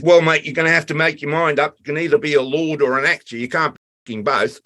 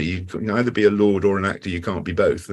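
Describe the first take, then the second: First: A lightly voiced Australian sparky, higher and blunt; mock Aussie crew bloke. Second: Said in the usual way. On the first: Crew member's blunt verdict retold. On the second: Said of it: "that little line stuck with me".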